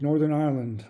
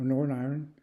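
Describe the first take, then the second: First: Said in the usual way. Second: "Northern Ireland" run together as "Norn Iron"; local-style pronunciation. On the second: Shown as a demonstration. Traveler offering the local way of saying Northern Ireland, "Norn Iron".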